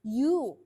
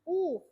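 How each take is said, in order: First: It starts with a y sound. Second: It is a plain oo vowel sound. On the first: The speaker calls it right. "bacanya itu y, huruf konsonan" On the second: The speaker calls it wrong. "bukan u"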